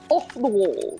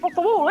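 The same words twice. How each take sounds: First: It is said in a posh English accent. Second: It is said in a Somerset English accent. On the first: "if I would pronounce it in the Hoth accent" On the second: "In Somerset, we say it's off the wall, innit?"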